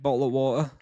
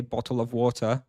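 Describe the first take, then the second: First: Bottle of water run together in a casual English accent; genuinely British "bottle of water", words slurred into one another. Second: "bottle of water" with each word distinct; more understandable. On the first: Streamer shows chat his English way of saying it, English accent. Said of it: "said it in an English accent". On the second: Streamer offers chat the more understandable British option, clearly pronounced. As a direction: say "bottle of water" carefully, with a separate "of". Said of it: "wanna be more understandable". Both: Shown as a demonstration.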